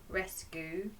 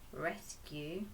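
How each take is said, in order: First: The last syllable is said with a plain oo. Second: The last syllable is said with a yoo sound. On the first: The speaker calls it wrong. "that doesn't sound quite right" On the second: The speaker calls it right. "then that sounds correct"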